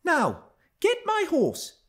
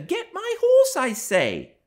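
First: Put-on high, slow girlish command; imperious young girl. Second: Put-on louder, high girlish command; insistent young girl. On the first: Young Cathy ordering her cousin like a stable boy, high imperious voice. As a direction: order him like a servant, in a child's voice. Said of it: "as she would of one of the stable boys". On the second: Young Cathy repeating her order to Hareton, high insistent voice. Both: A narrator's reading.

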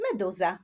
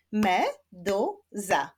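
First: Said in the usual way. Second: "Meduza" in three slow, separate beats; split into syllables. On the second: Shown as a demonstration. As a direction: clap out "Meduza" slowly, syllable by syllable. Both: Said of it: "Zapraszam do wyklaskiwania sylab".

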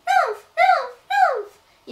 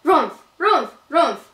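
First: Squeaky little bear, much higher; little bear call. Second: Middle bear call. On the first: Baby bear calls out coming home, high squeaky cub voice. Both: A narrator's reading. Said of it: "ಎಂದು ಕೂಗಿತು".

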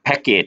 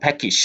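First: Package said as pack-ate, ending in a clear -et; the wrong way many say package, like pack-ate; common mispronunciation. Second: Package with a short -ij ending, pack-ij; correct pronunciation. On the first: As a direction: package with a flat ending, not -ij. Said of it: "มักอ่านว่า package". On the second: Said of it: "แต่จริงๆอ่านว่า package". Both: Shown as a demonstration.

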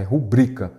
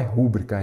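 First: "rubrica" stressed on the middle syllable, ru-BRI-ca; the right way, "rubrica" with the stress on BRI; correct stress. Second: "rúbrica" stressed on the first syllable, RÚ-bri-ca; the common mistake, "rúbrica" with the stress on RÚ; wrong stress. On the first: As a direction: say "rubrica" as a paroxytone, weight on BRI. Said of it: "a forma correta é rubrica". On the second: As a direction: say "rúbrica" as a proparoxytone, weight on RÚ. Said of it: "ela não é proparoxítona". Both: Shown as a demonstration.

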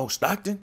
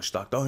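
First: High, rising "Oh, Stockton?" with the pitch jumping up on "Stockton"; light up on "Stockton", asking it high and eager; excited recognition. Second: Said in the usual way. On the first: Retold or imitated. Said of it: "And his eyes lit up again".

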